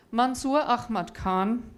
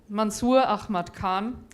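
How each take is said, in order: Both takes have the same delivery.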